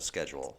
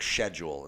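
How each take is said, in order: First: It is said with an ordinary, everyday pronunciation. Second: It is said with a fancy, affected pronunciation. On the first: The speaker talks like everyone else. The speaker calls it right. "instead of" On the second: The speaker is trying to sound sophisticated. The speaker calls it wrong. "try and make things sound fancier"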